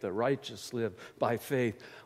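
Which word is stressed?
by faith. The words by faith carry the emphasis. Faith is how the righteous live. "or we emphasize the last words, by faith"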